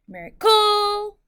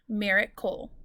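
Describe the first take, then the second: First: The stress falls on the final syllable. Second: The stress falls at the start of the word. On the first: The speaker calls it wrong. "If I said miracle and I accented the C L E" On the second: The speaker calls it right. "mira is my accented syllable"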